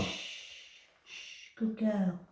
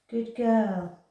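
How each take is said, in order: First: Slow, soft hush to the cat; calm her down gently; drawn-out soothing praise. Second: Said in the usual way. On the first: Real, not acted.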